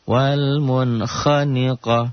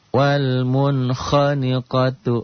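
First: The last word is cut short at the stop. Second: The last word ends with its full vowel ending. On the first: The reading stops at this word. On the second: The reading continues without stopping.

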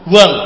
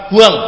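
No difference in how they are said.

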